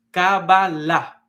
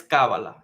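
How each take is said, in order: First: "Kabbalah" slow, with the stress on the last syllable, kabba-LAH; stress at the end. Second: "Kabbalah" with the stress on the first syllable, KA-bbalah. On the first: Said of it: "con el acento al final". ("Kabbalah" despacio, con el acento al final) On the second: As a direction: push the weight onto the opening "Ka" of "Kabbalah". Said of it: "le da el acento en la primera A". ("Kabbalah" con el acento en la primera A) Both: Shown as a demonstration.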